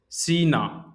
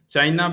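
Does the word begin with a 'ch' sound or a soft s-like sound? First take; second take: s-like sound; ch sound. First: It begins with a soft hissing s-like sound. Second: It begins with a hard 'ch' sound.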